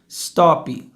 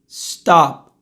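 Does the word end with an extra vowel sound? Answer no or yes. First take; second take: yes; no. First: An extra vowel sound follows the final p. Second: The word ends cleanly on the p. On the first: The speaker calls it wrong. "Repare que tem um i" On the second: The speaker calls it right. "o certo é stop"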